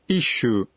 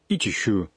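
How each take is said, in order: First: The word is said with a doubled s sound. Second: The word is said with a full chi syllable. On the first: The speaker calls it right. "надо произносить «ищу»" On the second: The speaker calls it wrong. "не «ичищу»"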